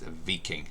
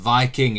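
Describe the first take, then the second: First: The name is said with a Norwegian pronunciation. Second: The name is said with an English pronunciation. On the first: The speaker calls it right. "pronunciation is Viking" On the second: The speaker calls it wrong. "We don't call them Viking"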